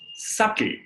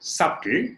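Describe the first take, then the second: First: The B is silent. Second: The B is pronounced. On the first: The speaker calls it right. "it is subtle" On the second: The speaker calls it wrong. "It is not subtle"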